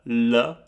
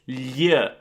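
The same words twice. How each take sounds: First: The L is soft, with light tongue contact. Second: The L is harsh, scraping against the palate. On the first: "you say L" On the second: "you want to make this a little bit more harsh again, so you do this"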